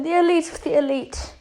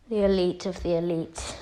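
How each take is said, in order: First: Higher-pitched scornful echo; mocking Frieza. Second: Low, understated self-introduction; Vegeta. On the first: Frieza laughs at Vegeta's title, higher mocking echo. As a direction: parrot the title back, pitched up. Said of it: "Frieza starts laughing". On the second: Retold or imitated. Vegeta introduces himself to Frieza, low and understated. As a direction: state the title in a lower voice. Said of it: "As Vegeta says".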